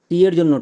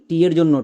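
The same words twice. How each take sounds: Both takes have the same delivery.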